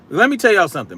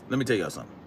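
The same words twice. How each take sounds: First: Said in the usual way. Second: Much softer, dropped low and confidential; hushed aside. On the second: Real, not acted. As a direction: lean in and tell them quietly. Repeats line much softer.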